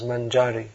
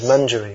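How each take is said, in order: First: The stress is on the middle syllable. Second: The stress is on the final syllable. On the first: The speaker calls it wrong. "in English and maybe Croatian it comes out as Manjari" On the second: The speaker calls it right. "it's actually pronounced Manjari"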